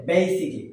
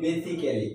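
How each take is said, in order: First: "basically" said as "BAY-sik-li", three syllables; correct pronunciation. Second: "basically" said as "be-si-ke-li", four even syllables; common mispronunciation. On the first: Teacher giving learners the proper form, "basically" as BAY-sik-li. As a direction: say "basically" with long "bay", dropping the "al". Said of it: "এর উচ্চারণ হবে". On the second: Teacher showing learners how we wrongly say it, mispronounced "basically" as be-si-ke-li. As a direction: say "basically" with a full "ke" before "li". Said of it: "আমরা এটাকে বলি". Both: Shown as a demonstration.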